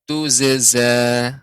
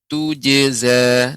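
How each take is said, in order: First: The middle consonant is a z sound. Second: The middle consonant is a j sound. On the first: "dengan zai" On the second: "saya baca yang pertama menggunakan huruf jim"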